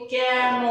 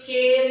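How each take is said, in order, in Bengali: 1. স্বরটি খোলা ae ধ্বনি। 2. স্বরটি বদ্ধ e ধ্বনি। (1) "উচ্চারণে কিন্তু বলি কেন" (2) "আমি লিখছি কেন"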